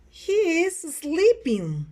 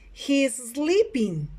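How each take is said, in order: First: Slower, high-pitched and stretched; drawn-out model sentence. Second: Slow teacher's model; model sentence for repeating. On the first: Teacher repeats picture six for students, high drawn-out delivery. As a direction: lift the pitch and stretch each word. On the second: Teacher reads picture number six, slow model delivery. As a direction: say it slowly for learners to copy. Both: Shown as a demonstration. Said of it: "Repeat after me".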